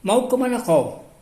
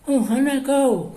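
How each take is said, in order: First: The voice is clear and not nasal. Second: The voice is strongly nasal. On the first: "Seperti kita" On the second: "orang yang bindeng tuh"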